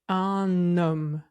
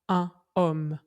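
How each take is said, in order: First: The n is linked onto the next word. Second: The two words are kept separate, without liaison. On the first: The speaker calls it right. "on dit un homme" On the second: The speaker calls it wrong. "on ne dit pas un homme"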